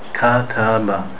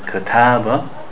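First: Each vowel is held exactly one equal beat. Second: The vowels are not all held one equal beat. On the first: The speaker calls it right. "say kataba. Each letter has one haraka" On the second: The speaker calls it wrong. "we don't want to say kataba"

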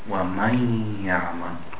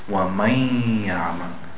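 Both takes have the same delivery.

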